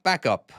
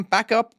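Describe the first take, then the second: First: Said in the usual way. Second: Higher, louder, rising call; urging the truck back, pitched up and louder; urgent call. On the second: Real, not acted. Urging himself to reverse the truck.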